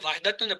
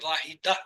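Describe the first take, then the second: First: The word ends with a full -tun ending. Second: The word ends with a plain -a vowel. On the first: This is the full written form. "लिखते" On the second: This is how it is read aloud. "पढ़ते हैं"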